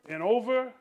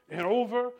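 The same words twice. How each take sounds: The two takes are said the same way.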